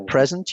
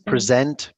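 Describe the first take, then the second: First: The stress is on the first syllable. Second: The stress is on the second syllable. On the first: It is used as a noun. "If it was a noun" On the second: It is used as a verb. "because it's a verb"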